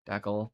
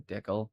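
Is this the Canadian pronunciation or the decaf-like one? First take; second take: Canadian; Canadian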